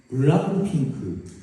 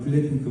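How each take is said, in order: First: It is said with a vowel after every consonant. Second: It is said with ordinary Korean pronunciation.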